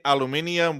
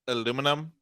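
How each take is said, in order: First: The word ends with an extra '-ium' syllable. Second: The word ends with a short '-num' syllable. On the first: This is how other people say it. "they say aluminium" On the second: This is how the speaker's own group says it. "we say I may pronounce this wrong, aluminum"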